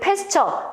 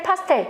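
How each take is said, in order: First: The name ends with a 'cher' sound. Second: The name ends with a 'tel' sound. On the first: This is the English pronunciation. "영어 발음은 패스처인데" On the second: This is how it was learned in elementary school. "우리가 초등학교 학교 때 이럴 때 보기에는 파스텔"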